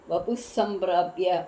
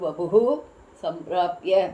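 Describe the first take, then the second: First: The first word ends plainly without a 'hu' sound. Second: The first word ends with an added 'hu' sound. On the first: This is how it is printed. "அப்படி போட்டிருக்கா" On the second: This is how it is recited. "ஆனால் நம்ம படிக்கும்போது"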